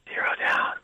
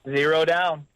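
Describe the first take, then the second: First: It is said in a whisper. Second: It is said in a normal voice.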